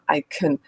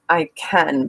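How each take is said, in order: First: The vowel in 'can' is weak and reduced. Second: The vowel in 'can' is full and clear. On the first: "vowel reduction, so making these these weak forms of sound" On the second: "instead of"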